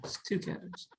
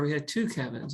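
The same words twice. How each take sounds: First: Soft whispered aside; playful whisper. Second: Said in the usual way. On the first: Pretend. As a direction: whisper the punchline like a secret joke. Whispered joking repeat of phrase.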